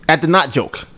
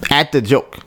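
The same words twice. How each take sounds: First: "not" picked out as a correction; correcting, with NOT stressed. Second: Said in the usual way. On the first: Real, not acted. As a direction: lean on the word "not" to correct yourself.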